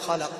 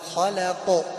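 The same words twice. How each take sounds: First: The final q sound ends plainly, without a bounce. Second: The final q sound ends with a slight bounce. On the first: The speaker calls it wrong. "لا نقول خلق لأن هنا قلقلة" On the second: The speaker calls it right. "هنا قلقلة"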